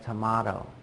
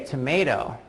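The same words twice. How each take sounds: First: It is said in a British accent. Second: It is said in an American accent. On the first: "someone in England would say tomato" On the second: "I would say tomato"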